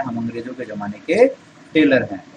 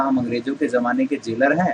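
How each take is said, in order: First: The slip टेलर said with a t sound in place of j; the Sholay slip, टेलर for jailer; mistaken tailor. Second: The right word जेलर said with a clear j sound; correct jailer. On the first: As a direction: deliver the blunder, टेलर with t. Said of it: "और कहता है". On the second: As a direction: quote the line plainly, जेलर with j. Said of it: "तो बोलना था". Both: Shown as a demonstration.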